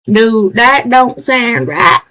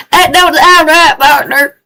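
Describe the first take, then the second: First: Slow, light Southern twang; southern accent. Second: Southern twang, louder and higher; loud southern cowboy. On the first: Streamer playing southern at a wrong key, Southern accent. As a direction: drawl it like a cowboy. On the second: Streamer in southern skin calls it wrong, loud Southern accent. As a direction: holler it like a cowboy partner. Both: Acted. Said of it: "especially southern today".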